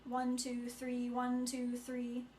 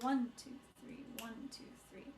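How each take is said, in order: First: The count is flat and evenly weighted. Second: The count sways with a light, dancing lilt. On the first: The speaker calls it wrong. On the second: The speaker calls it right. "that lilting, waltzing, dancing quality of"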